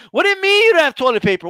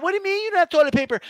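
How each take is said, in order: First: Fast, higher mock yell at the cashier; yelling customer. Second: High, fast and whiny, a demanding lady; entitled lady. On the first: An outraged shopper yelling at a cashier, fast mock yell. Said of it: "you're just yelling at somebody". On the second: Retold or imitated. A short-haired lady complaining to a cashier, high and whiny. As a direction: rattle it off like an entitled shopper. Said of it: "with short hair and shit".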